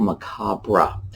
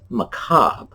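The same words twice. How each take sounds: First: The ending is said the English way. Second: The ending is said the French way. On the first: "we anglicize the R E to macabre" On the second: "as close as we can come to the French"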